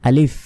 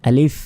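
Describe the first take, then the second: The two takes are said the same way.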